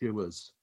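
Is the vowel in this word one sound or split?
split. The vowel splits into two sounds.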